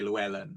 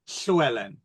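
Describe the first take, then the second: First: It begins with a plain, voiced L sound. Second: It begins with a breathy, hissing L sound. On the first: This is how outsiders say the name. "in the States, for instance, they just say Llewellyn" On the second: This is the native form of the name. "It would be the correct"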